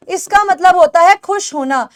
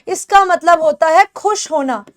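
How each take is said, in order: Both takes have the same delivery.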